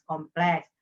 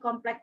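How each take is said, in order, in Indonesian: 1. Kata kompleks diakhiri dengan bunyi s. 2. Kata kompleks diakhiri dengan bunyi k. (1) "harusnya ... kompleks" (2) "itu pasti Jawa Barat"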